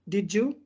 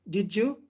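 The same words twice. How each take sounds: The two takes are said the same way.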